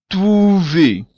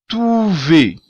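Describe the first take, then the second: The two takes are said the same way.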